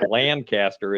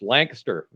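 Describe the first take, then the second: First: The middle of the name is fully pronounced. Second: The middle of the name is reduced. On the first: This is how an outsider says it. The speaker calls it wrong. "not Lancaster, as I'm inclined as a Midwesterner to pronounce it" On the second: This is the local way to say it. The speaker calls it right. "It's a single syllable"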